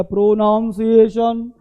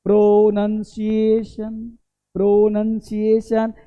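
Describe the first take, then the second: First: "प्रोनाउंसिएशन" with NOWN in the middle; wrong pronunciation. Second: "प्रोनंसिएशन" slowly as pro-NUN-si-ay-shun; correct pronunciation. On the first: Teacher shows the non-word people use, wrong pronunciation. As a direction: say "प्रोनाउंसिएशन" as pro-nown-si-ay-shun. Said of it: "ये भाई साहब शब्द ही नहीं है". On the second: Teacher models the real word, correct pronunciation. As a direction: stretch each vowel, keep NUN in "प्रोनंसिएशन". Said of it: "ये कर दिया प्रोनाउंसिएशन". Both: Shown as a demonstration.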